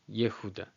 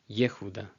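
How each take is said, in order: Both takes have the same delivery.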